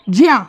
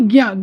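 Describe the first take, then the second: First: The syllable begins with a 'j' sound. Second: The syllable begins with a 'g' sound. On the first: The speaker calls it right. "क्या सही उच्चारण है? ज्या।" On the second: The speaker calls it wrong. "ना कि ज्ञा। ज्ञा बोलेंगे तो ये गलत होता है"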